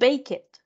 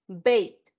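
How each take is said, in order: First: The ending is said as an extra syllable. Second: The ending is a single t sound. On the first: The speaker calls it wrong. "No es bake it, no" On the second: The speaker calls it right. "Bake, bait"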